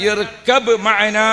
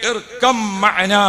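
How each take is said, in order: First: Slow, clear ഇർകബ് with a full b sound; correct pronunciation. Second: Slow ഇർകം, with the b sliding into an m sound; choked pronunciation. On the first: Preacher teaching the right recitation, slow and clear. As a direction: spell out ഇർകബ് മഅനാ slowly, ending ഇർകബ് on a clean b. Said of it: "ശരിക്കും പറയേണ്ടത് എങ്ങനെയാണ്". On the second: Preacher showing how the prophet's voice broke, slow. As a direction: say ഇർകം slowly, the b merging into m as the throat catches. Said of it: "മൂപ്പര് തൊണ്ട ഇടറിയിട്ട്". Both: Shown as a demonstration.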